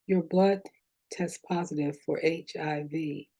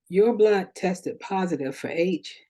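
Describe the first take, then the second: First: It is said lower and more slowly. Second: It is said at normal pitch and pace.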